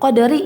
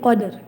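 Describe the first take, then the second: First: The final vowel is pronounced fully. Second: The word ends on r with no vowel. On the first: "qadari ya biasanya jadi qadr" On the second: "biasanya jadi qadr"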